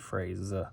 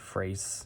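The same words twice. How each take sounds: First: The word ends with a buzzing z sound. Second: The word ends with a hissing s sound. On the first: The speaker calls it right. "it would be phrase" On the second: The speaker calls it wrong. "this is written with an S, but you might pronounce it more of a Z. So in this case, it wouldn't be phrase"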